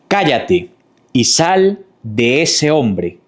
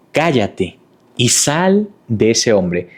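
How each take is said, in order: First: Slow, firm rebuke; authoritative command. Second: Slow, steady rebuke said again; repeated firm command. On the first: Jesus rebuking the demon with slow firm authority. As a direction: command the spirit out slowly. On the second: Jesus repeating his slow firm rebuke to the demon. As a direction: drive the command home slowly. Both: A narrator's reading. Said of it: "le hizo frente con autoridad".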